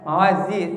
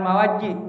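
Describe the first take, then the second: First: The middle consonant is a clear z. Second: The middle consonant sounds like j. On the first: The speaker calls it right. "tapi ma, mawazi zai coba zai zai" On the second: The speaker calls it wrong. "jangan mawaji"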